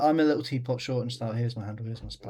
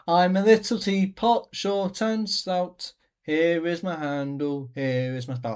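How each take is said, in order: First: It is said flatly, without passion. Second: It is said with strong passion.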